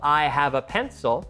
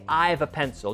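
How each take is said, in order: First: The verb have is said in full. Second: The verb have is contracted to 've. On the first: The speaker calls it right. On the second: The speaker calls it wrong.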